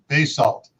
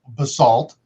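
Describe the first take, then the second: First: The word is said the Idaho way. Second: The word is said the California way. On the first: This is how locals in Idaho say it. "Here, where there is a ton of basalt, it's pronounced basalt" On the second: This is how people in California say it. "You go uh, to California, it's pronounced basalt"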